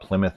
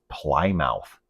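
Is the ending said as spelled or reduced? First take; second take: reduced; as spelled. First: The ending is pronounced in a reduced, weak form. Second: The ending is pronounced fully, as it is spelled. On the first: The speaker calls it right. "we talk about Plymouth, Massachusetts" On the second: The speaker calls it wrong. "I saw a few people pronouncing this Plymouth. Were they joking?"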